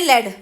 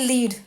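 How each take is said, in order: First: The vowel is a short 'e' sound. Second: The vowel is a long 'ee' sound. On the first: The metal. "वहीं एक है लेड, लेड माने ये हो गया हमारा metal" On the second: To guide someone. "एक को हम बोलते हैं लीड, मतलब लीड करना"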